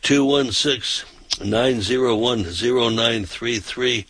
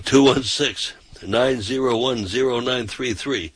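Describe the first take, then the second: No difference in how they are said.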